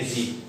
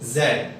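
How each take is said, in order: First: The letter is said as American 'zee'. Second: The letter is said as British 'zed'.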